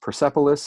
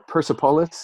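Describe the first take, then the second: First: It is said with an English accent. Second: It is said with a Persian accent. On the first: "if you're pronouncing it very Anglo" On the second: "if you're going to go a little more Persian"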